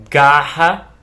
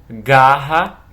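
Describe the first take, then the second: Both takes have the same delivery.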